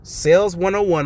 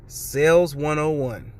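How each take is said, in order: First: Said in the usual way. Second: Sales one oh one spoken slowly, every word drawn out. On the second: Shown as a demonstration. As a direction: draw out Sales one oh one like a wise punchline.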